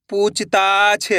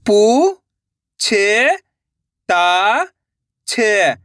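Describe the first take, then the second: First: Syllables joined into one slow word; blended word. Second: Long drawn-out syllables with pauses between. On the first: Teacher joining the syllables for learners, slowly blended. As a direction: read it as one whole, stretched word. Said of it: "इनको आपस में लाकर पढ़ना है". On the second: Teacher sounding out a word for learners, syllable by syllable. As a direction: sound out each syllable slowly and separately. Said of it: "एक एक अक्षर का उच्चारण करके". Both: Shown as a demonstration.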